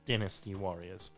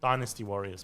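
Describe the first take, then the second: First: Dynasty is said with a British pronunciation. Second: Dynasty is said with a non-British pronunciation. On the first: This is how it is said in Britain. "obviously the British pronunciation is Dynasty Warriors" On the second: This is how the game's adverts said it. "they were promoting it as Dynasty Warriors"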